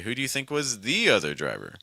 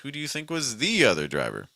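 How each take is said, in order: First: The word the carries the main stress. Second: The same.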